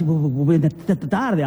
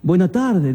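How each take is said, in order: First: Nervous stutter, buenas t- t- tardes; stumbling over tardes, repeating the t. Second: Said in the usual way. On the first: A narrator's reading. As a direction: stammer out the greeting, tripping on the t. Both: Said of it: "pero ya tartamudeando".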